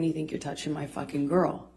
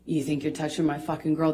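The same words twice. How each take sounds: First: It is said less loudly. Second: It is said more loudly.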